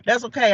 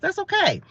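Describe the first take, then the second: First: Said in the usual way. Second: High, lilting "That's okay"; playful high-pitched brush-off; sing-song reassurance. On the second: Pretend. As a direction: toss it off in a high, breezy singsong. Shrugging off being called crazy.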